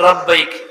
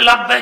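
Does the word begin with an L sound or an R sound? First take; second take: R sound; L sound. First: The word begins with an R sound. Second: The word begins with an L sound. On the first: The speaker calls it wrong. "র দিয়ে বলি" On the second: The speaker calls it right. "আমি কই লাব্বাইক"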